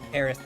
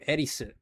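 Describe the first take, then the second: First: The name ends with a 'th' sound. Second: The name ends with a 'su' syllable. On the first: This is the translated, English-style form of the name. "a more Englishified version, which is the Aerith T H" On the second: This is the original Japanese form of the name. "That's that's the original Japanese name"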